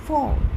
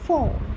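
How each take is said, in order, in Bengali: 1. স্বরধ্বনিটি ছোট আর ছাঁটা। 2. স্বরধ্বনিটি ছোট আর ছাঁটা।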